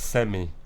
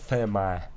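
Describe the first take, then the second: First: It is said with a British pronunciation. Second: It is said with an American pronunciation. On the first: The speaker calls it right. "It's semi" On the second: The speaker calls it wrong. "I love how Americans say semi"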